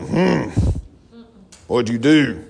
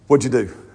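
First: It sounds suspicious and judging. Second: It sounds eager and excited.

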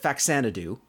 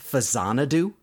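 First: The middle consonant sounds like ks. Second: The middle consonant sounds like a z. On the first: This is how the show says it. The speaker calls it wrong. "they pronounce it Faxanadu. I'm not going to take that as canonical" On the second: This is the original intended pronunciation. The speaker calls it right. "the title of that game is actually pronounced Fazanadu because it's in the Xanadu series"

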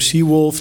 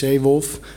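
First: The name is pronounced like English 'sea wolf'. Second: The name is pronounced with Dutch sounds. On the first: The speaker calls it wrong. "Je bent geneigd om Seawolf te zeggen" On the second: The speaker calls it right. "maar het is Zeewolf"

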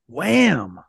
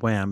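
First: It is said quick and punchy. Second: It is said flatly and weakly.

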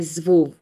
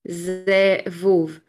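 First: The first vowel is dropped, giving one syllable. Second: The word is said with two full syllables.

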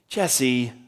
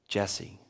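First: The name is said in a sharp, scolding tone. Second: The name is said in a firm, serious tone. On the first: The listener is in trouble. "Jesse, what are you doing?" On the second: The caller has something important to discuss. "Jesse means, I need to talk to you"

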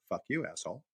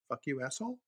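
First: It is said flatly, without expression. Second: It is said sweetly and innocently.

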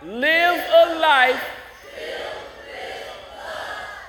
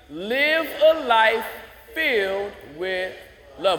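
First: It is said very loudly. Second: It is said louder than normal.

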